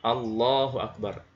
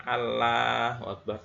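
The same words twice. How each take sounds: First: "Allahu Akbar" with a thick, dark L; this way: a heavy L in "Allahu"; heavy lam. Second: "Allahu Akbar" with a light, thin L; not like this: a thin L in "Allahu"; thin lam. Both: Shown as a demonstration.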